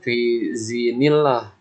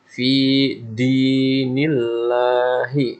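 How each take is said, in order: First: The second word begins with a z sound. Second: The second word begins with a d sound. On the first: The speaker calls it wrong. "banyak juga yang bacanya fi zinillah, pakai zi" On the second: The speaker calls it right. "Lihat di sini huruf dal"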